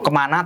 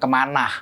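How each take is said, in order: First: The word ends plainly on the vowel. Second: The word ends with an added h sound.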